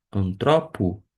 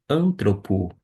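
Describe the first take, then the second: First: "antropo" with the beat on TRO; stress on second syllable. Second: "antropo" stressed on AN; stress on first syllable. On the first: Teacher repeating the word for learners, "antropo" stressed on TRO. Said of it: "em cima do ômega". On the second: Teacher showing the other accentuation, "antropo" stressed on first syllable AN. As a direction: hit AN, let "-tropo" fall away in "antropo". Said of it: "na primeira sílaba". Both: Shown as a demonstration.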